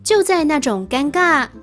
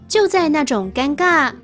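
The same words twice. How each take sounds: The two takes are said the same way.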